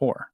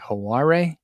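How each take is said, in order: First: It is said exactly like the word 'whore'. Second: It is said differently from the word 'whore'. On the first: The speaker calls it right. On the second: The speaker calls it wrong. "They're they will say like Haware"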